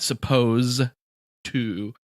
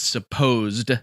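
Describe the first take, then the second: First: No 'd' sound is heard at the word's end. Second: A 'd' sound is heard at the word's end. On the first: The speaker calls it wrong. "not suppose to" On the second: The speaker calls it right. "with the ed"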